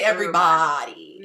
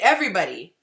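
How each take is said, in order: First: The ending sounds like 'body'. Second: The ending sounds like 'buddy'. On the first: "I don't say" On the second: "my body comes out as buddy"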